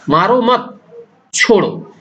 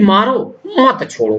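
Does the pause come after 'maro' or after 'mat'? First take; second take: after mat; after maro. First: There is a pause after the second word. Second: There is a pause after the first word. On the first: Do not hit him; let him go. "मारो मत के बाद अल्प विराम लगेगा" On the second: Hit him; do not let him go. "मारो के बाद अगर हम फिर अर्ध विराम लगा देते हैं"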